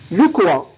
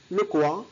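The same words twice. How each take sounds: First: Loud, incredulous "Le quoi?"; loud puzzled question. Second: Said in the usual way. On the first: Shown as a demonstration. Teacher modelling a surprised question for learners, loud. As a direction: bark "Le quoi?" as if you didn't catch it. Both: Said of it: "نستعملها للاستفهام".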